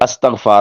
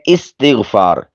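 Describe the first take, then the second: First: The first vowel is 'a', as in 'up'. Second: The first vowel is 'i', as in 'is'. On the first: The speaker calls it wrong. "ये अस्तग़फ़ार नहीं होता" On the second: The speaker calls it right. "हमज़ा के कसरा के साथ"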